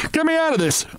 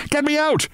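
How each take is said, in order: First: High desperate bawl; panicked high cry for help. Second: High desperate bawl again, cut short; frantic high cry to get out. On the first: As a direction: yell to be freed from a nightmare. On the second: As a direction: cry out trapped in the dark. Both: A narrator's reading. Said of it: "I bawled".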